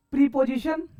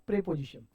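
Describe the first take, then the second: First: प्रीपोजिशन with a long ee, pree-po-zi-shan; प्रीपोजिशन with a long first vowel, pree; wrong pronunciation. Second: प्रीपोजिशन with a short e, pre-po-zi-shan; प्रीपोजिशन said pre, not pree; correct pronunciation. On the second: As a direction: say प्रीपोजिशन as pre-position, short first vowel. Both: Shown as a demonstration. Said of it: "प्रीपोजिशन नहीं बोलने का".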